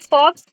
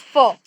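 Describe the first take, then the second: First: The word ends with a ks sound. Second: The word ends with a plain vowel. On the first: The speaker calls it wrong. "It's not fox" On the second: The speaker calls it right. "it's fo"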